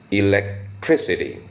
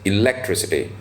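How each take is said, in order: First: The stress falls on the syllable tris. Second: The stress falls away from the syllable tris. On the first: The speaker calls it right. "the stress is on the syllable tris" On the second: The speaker calls it wrong. "some people also pronounce it as"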